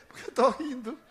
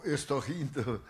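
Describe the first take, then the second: First: High, rising tone on "rindo"; retold questioning echo. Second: Said in the usual way. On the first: Answering the angry stranger, retold high questioning echo. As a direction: lift "rindo" high with a laugh nearby.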